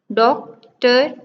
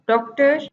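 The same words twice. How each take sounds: First: "डॉक्टर" as doc, pause, ter; split into syllables. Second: Said in the usual way. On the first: Shown as a demonstration. Teacher counting two syllables in doctor, each said apart. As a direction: leave a clear gap inside "डॉक्टर". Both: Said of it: "two syllable".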